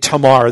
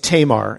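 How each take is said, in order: First: The name is said without a long A sound. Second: The name is said with a long A sound. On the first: The speaker calls it right. "They don't really have that long A sound typically on names" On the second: The speaker calls it wrong. "I'm not pronouncing that right"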